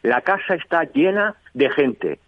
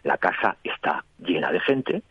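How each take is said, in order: First: The voice is pitched high. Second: The voice is pitched low. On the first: "Y en un tono alto" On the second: "Un tono bajo, bajando la voz"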